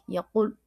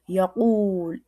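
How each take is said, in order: First: The vowel is cut short and clipped. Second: The vowel is drawn out long. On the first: "C'est comme sec" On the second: "il donne le son ou"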